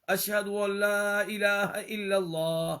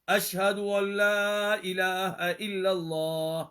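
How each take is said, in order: Both takes have the same delivery.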